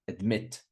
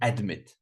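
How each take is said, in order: First: The stress is on the second syllable. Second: The stress is on the first syllable. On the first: The speaker calls it right. "second syllable" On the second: The speaker calls it wrong. "Not admit"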